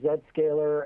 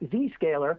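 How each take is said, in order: First: It is said the Canadian way, with 'zed'. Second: It is said the American way, with 'zee'.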